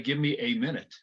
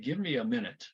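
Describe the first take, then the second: First: The article is a full 'ay' sound. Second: The article is a reduced 'uh' sound. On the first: The speaker calls it wrong. "we're not going to say" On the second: The speaker calls it right. "We're going to say, ... A is going to sound like a schwa"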